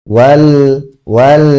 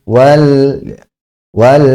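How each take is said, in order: The two takes are said the same way.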